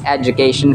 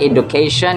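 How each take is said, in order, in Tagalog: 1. Ang gitnang katinig ay tunog J. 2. Ang gitnang katinig ay simpleng tunog D. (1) "it's education from American English" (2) "It's not education"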